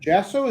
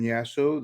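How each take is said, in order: First: The name begins with a J sound. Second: The name begins with a Y sound. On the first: "Is it really J?" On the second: "Did I pronounce that right"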